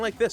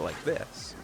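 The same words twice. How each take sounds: First: It is spoken loudly and forcefully. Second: It is spoken quietly and gently. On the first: This is the volume needed to be heard on a lav mic. "you have to be quite loud with them" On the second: This is the speaker's normal, softer way of talking. "as opposed to like this"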